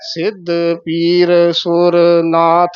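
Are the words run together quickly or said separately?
separately. Each word is said separately. The speaker calls it right. "ਵੱਖਰੇ ਵੱਖਰੇ ਬੋਲਨੇ ਆ"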